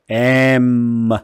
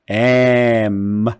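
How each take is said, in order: Both takes have the same delivery.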